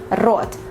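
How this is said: The r is a harsh, rolled Russian r. "Russian kind of pronunciation"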